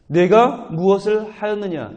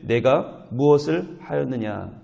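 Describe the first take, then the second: First: 내가 무엇을 하였느냐 slowed and raised higher, 내가 stressed with a falling end; emphatic question. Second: Said in the usual way. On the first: Shown as a demonstration. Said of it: "이 질문이 얼마나 중요한 겁니까?". (내가 무엇을 하였느냐를 높고 느리게, 내가에 힘주어)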